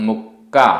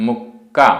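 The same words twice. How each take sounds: No difference in how they are said.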